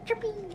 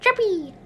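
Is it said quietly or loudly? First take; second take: quietly; loudly. First: It is said quietly. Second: It is said loudly.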